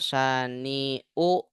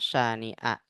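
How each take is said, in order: First: The word ends in the vowel u. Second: The word ends in the vowel a. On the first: The speaker calls it wrong. "Nggak boleh dibaca" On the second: The speaker calls it right. "Harus dibaca syani'a"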